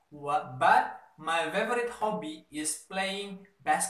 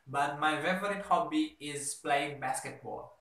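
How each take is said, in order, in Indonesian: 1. Kalimat ini diucapkan dengan lambat, setelah jeda. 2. Kalimat ini diucapkan dengan tempo sedang, normal. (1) "You can speak slower if you have to" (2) "versi sedangnya dulu deh"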